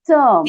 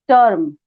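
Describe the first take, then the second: First: It is said with a native English t sound. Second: It is said with an Indian English t sound. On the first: The speaker calls it right. "but it's term" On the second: The speaker calls it wrong. "we say term"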